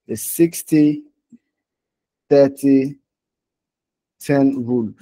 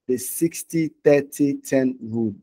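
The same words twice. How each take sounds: First: SIXTY, THIRTY, TEN RULE set apart by long pauses; spaced out for emphasis. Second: Said in the usual way. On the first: Real, not acted. Teacher repeating the rule for learners, spaced out for emphasis. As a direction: leave a full pause after "sixty" and after "thirty".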